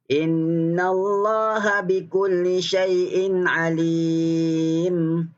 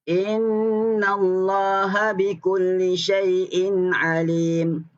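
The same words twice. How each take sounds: First: The vowel in the last word is held moderately. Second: The vowel in the last word is held briefly. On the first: "Empat harakat" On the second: "Itu dua harakat"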